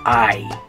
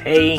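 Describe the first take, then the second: First: The H is silent and it sounds like eye. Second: It starts with an H and sounds like hey. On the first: This is the Spanish pronunciation. "In Spanish, you say I" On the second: This is how an English reader would say it. "So in English, it's hey"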